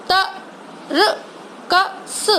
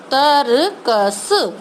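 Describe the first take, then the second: First: तरकस stretched sound by sound, very slowly and softer; slow sounded-out word. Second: तरकस said more joined; blended word. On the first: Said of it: "उसका sound slow बोल रही हूँ". (तरकस को अक्षर-अक्षर खींचकर बोलना) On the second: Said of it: "तीनों को मिला के". (तरकस को मिलाकर बोलना) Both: Shown as a demonstration.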